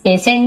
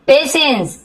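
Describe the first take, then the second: First: पेशेंट said with a clear t ending; patient with t. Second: पेशेंस said with a clear s ending, not t; patience with s. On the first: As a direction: end पेशेंट on a crisp t. (पेशेंट को आख़िर में ट के साथ बोलें) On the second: (पेशेंस को आख़िर में स के साथ बोलें) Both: Shown as a demonstration. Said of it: "पेशेंट नहीं बोल रहा है".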